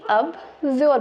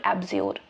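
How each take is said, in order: First: अब्ज्योर said simply, with a short "ab" opening; simple reading. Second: एब्ज्योर said the modern way, opening on an open "e" sound; modern reading. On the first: Teacher to students, showing the simple अब्ज्योर reading. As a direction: read अब्ज्योर the plain, simple way. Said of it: "या तो आप simply अब्ज्योर पढ़ सकते हैं". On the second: Teacher to students, giving the modern एब्ज्योर reading. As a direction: read एब्ज्योर with the modern "eb" start. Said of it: "थोड़ा सा modern तरीके से पढ़ना चाहते हैं तो आप कहेंगे". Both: Shown as a demonstration.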